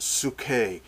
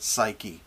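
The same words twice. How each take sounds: First: "psyche" said slowly as soo-KAY; Greek pronunciation. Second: "psyche" said the English way, SY-kee; English pronunciation. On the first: Preacher correcting to the Greek word, "psyche" as soo-KAY. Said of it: "but it's psyche". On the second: Preacher showing the familiar English pronunciation, "psyche" as SY-kee. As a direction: pronounce "psyche" with silent p, as SY-kee. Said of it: "We would pronounce it psyche". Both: Shown as a demonstration.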